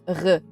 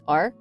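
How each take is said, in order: First: The R is made in the back of the throat. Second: The R is made English-style, without rolling. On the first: "it comes from the throat, not from the tongue" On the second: "In English, it's like R"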